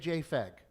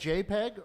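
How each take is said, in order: First: The second part starts with an F sound. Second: The second part starts with a P sound. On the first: "or do you say JFEG? ... that P, the phonetics, is photography" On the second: "do you say JPEG"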